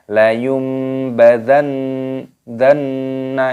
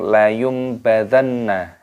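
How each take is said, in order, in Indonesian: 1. Nun ganda ditahan dengan dengung sengau. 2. Nun ganda lewat begitu saja tanpa dengung. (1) "itu namanya berdengung" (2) "jangan langsung layum badanna"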